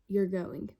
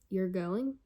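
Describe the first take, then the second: First: It ends with a plain falling statement tune. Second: It ends with a rising question tune. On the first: It states a fact. "whether it was a period" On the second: It asks whether it is true. "whether it was a question mark"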